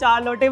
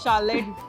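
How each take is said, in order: First: The name starts with a hard ch sound. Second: The name starts with a soft sh sound. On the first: The speaker calls it wrong. "बच्चे उसको चार लोटे पढ़ते थे" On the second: The speaker calls it right. "एक name था शार्लेट"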